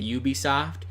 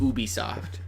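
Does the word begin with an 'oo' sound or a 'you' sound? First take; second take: you; oo. First: The word begins with a 'you' sound. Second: The word begins with an 'oo' sound. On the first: "Spell out Y O U if you say it" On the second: "use O O if you use"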